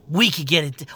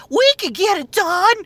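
First: Said in the usual way. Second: Much higher, squeaky comic sidekick; mock the chirpy robot helper; mock ghost voice. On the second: Mimicking the ghost's line.

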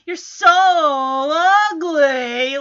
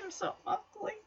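First: "so" and "ugly" stretched out long; imitated insult, lingering on "so" and "ugly"; drawn-out insult. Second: Very soft, high, pitiful murmur; small mock-forlorn voice; sad. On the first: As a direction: draw out "so" and "ugly" mockingly. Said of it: "she draws out the words". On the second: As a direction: imitate a crushed teenager, barely audible. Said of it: "he just looks so sad, like".

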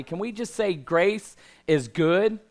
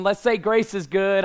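First: Said in the usual way. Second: Louder, higher, rallying the crowd; call and response. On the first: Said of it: "That was, that was weak". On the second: Real, not acted. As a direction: pump up the congregation. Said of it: "Come on".

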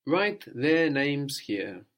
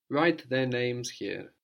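First: Write their names here said slowly, every word apart; slow and clear. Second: Write their names here again slowly, a bit lighter; slow repeat. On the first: Teacher to student, slowly setting the prompt. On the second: Teacher repeating the prompt, slow and clear. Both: Shown as a demonstration.

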